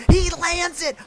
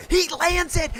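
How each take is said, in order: First: Much higher and louder, shouted; thrilled shout. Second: Much higher, thrilled call; first burst of disbelief at the landing; excited call. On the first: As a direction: hit it harder the second time. Repeats landing call, louder. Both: Real, not acted.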